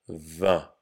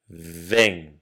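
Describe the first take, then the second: First: It is said with a Parisian accent. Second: It is said with a southern French accent. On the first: "comme à Paris par exemple" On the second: "Je vais d'abord dire le mot vin comme moi je le prononce"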